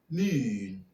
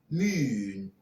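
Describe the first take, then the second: First: The vowel is a fronted oo sound. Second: The vowel is a fronted oo sound.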